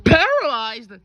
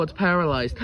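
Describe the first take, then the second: First: Loud, high, incredulous question; shocked echo. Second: Said in the usual way. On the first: Acted. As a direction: throw the word back in loud disbelief.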